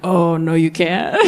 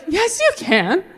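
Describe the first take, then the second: First: Low, knowing refusal; adult woman. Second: High, rising daughter's voice; pleading daughter. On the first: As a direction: rule it out as a grown woman, pitched low. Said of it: "as an adult woman now". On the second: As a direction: insist to dad in a high daughterly voice. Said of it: "And as his daughter". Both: Retold or imitated.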